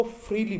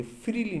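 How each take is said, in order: First: "फ्रीली" with f and r joined, "FREE-lee"; correct pronunciation. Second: "फ्रीली" broken as "fi-REE-lee"; wrong pronunciation. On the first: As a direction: say "फ्रीली" with no vowel between f and r. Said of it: "इसको फ्रीली बोलेंगे". ("फ्रीली" का सही उच्चारण, "फ्र" जुड़ा हुआ) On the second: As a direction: slip a short i between f and r in "फ्रीली". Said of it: "फ्रीली नहीं". ("फ्रीली" का गलत उच्चारण, "फिरीली") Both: Shown as a demonstration.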